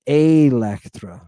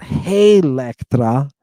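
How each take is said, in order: First: Electra slow, with no H on the front; no H sound. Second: Hey Electra with an H puffed on the front; wrong H sound. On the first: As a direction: start Electra on a clean vowel. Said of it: "it's not Hey Electra". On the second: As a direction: add a false H before Electra. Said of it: "with an H sound on the front". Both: Shown as a demonstration.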